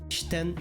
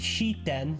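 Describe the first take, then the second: First: The vowel after 'sh' is dropped. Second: The vowel after 'sh' is fully voiced. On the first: The speaker calls it right. "They become just sh... It's shiten" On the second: The speaker calls it wrong. "It's not shiten"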